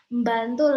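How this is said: The initial B is light and thin. It sounds less like a medok accent. "itu kita lebih tipisin gitu"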